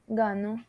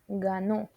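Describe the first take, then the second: First: The stress is on the first syllable. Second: The stress is on the last syllable. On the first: I win, in the present. "this one is just gano" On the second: He won, in the past. "pronunciate this syllable uh, with a strong accent"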